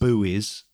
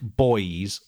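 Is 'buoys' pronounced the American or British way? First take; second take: American; British. First: Buoys is pronounced the American way. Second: Buoys is pronounced the British way.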